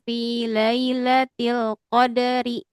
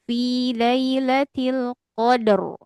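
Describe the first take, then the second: First: The word continues and the r sounds light. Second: The word stops and the r sounds heavy. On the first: The reciter joins it to the next verse. "kalau kita baca wasol ... maka dibaca tipis" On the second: The reciter pauses at the end of the verse. "kalau kita bacanya di apa berhenti ... dipenuhi mulutnya diangkat"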